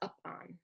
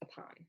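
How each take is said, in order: First: The first vowel is a full, stressed 'uh'. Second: The first vowel is a tiny, unstressed schwa. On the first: The speaker calls it wrong. "It's not up on" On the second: The speaker calls it right. "It's upon, right? It's a schwa"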